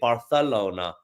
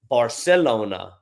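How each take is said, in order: First: It is said with a Spain Spanish pronunciation. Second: It is said with a Latin American pronunciation. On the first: "they would say Barcelona in Spain" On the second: "In South America, they would say"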